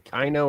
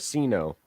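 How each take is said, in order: First: The word begins with a K sound. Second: The word begins with an S sound. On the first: "is it a hard C" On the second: "or a soft C"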